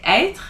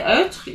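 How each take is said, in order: First: Être with an open "eh" vowel; correct French pronunciation. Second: Être with a wrong rounded eu vowel; mispronounced. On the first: French teacher modelling the circumflex E, correctly pronounced. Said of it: "you wanna say être". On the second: French teacher warning learners off a mistake, mispronounced. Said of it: "you don't wanna say". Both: Shown as a demonstration.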